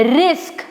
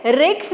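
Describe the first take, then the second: First: रिस्क with s then k, as risk; teacher showing the right way to say रिस्क; correct pronunciation. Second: रिक्स with k before s, as ricks; teacher showing the common mistake रिक्स; wrong pronunciation. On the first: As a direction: say रिस्क as risk, half s before k. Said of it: "इसको हमें ऐसे बोलना है रिस्क". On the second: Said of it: "रिक्स नहीं बोलना है". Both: Shown as a demonstration.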